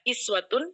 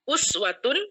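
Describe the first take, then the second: First: The first vowel is 'i'. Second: The first vowel is 'u'. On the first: This is the variant reading. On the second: This is the usual reading.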